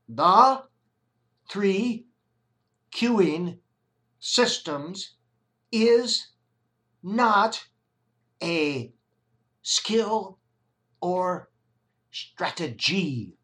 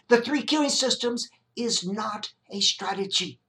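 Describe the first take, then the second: First: It is said slowly. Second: It is said at normal speed.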